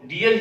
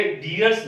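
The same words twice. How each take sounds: First: डियर ending on r, no s; correct unchanged form. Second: डियर्स with an added final s; mistaken plural. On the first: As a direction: say डियर without a plural s. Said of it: "हम डियर ही बोलेंगे". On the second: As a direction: tack an s onto डियर्स. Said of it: "डियर्स नहीं बोलेंगे". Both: Shown as a demonstration.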